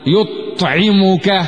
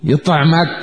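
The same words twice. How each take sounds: First: The word is pronounced in classical Arabic form. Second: The word is pronounced in colloquial dialect form. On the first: "بالفصحى" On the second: "بالعامية"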